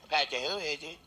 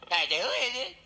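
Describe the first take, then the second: First: Squawky parrot imitation. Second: Higher, louder impatient call; louder plumber. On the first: Parrot answering the knock with a squawky voice. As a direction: screech it like a pet parrot. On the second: Acted. Plumber knocking again calls out louder, impatient. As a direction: call through the door, getting annoyed.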